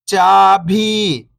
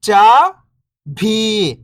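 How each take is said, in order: First: Whole word, level then falling at the end; syllables blended. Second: First syllable lifting, pause, second falling. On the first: Teacher showing beginners the joined word, syllables blended. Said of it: "इनको आपस में लाके पढ़ना है". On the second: Teacher breaking a word down for beginning readers, syllable by syllable. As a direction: sound out each syllable alone, long and separated. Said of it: "एक अक्षर का उच्चारण करके". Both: Shown as a demonstration.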